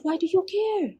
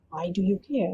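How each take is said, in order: First: Sharp high challenge, pitched up; angry demand. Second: Said in the usual way. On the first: Retold or imitated. Captor challenges the captive woman, high and sharp. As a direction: throw the question back at her. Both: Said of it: "he didn't say it in such nice words".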